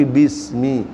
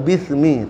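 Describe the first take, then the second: First: "bismi" slowly with a clear s; correct pronunciation. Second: "bismi" as "bithmi", th for s; tongue between the teeth in "bismi"; lisped wrong pronunciation. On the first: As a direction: stretch "bismi", hissing the s cleanly. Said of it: "tapi bismi". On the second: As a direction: demonstrate the mistake in "bismi" with a lisped s. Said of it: "Bukan bismi". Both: Shown as a demonstration.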